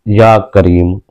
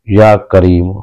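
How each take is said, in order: The two takes are said the same way.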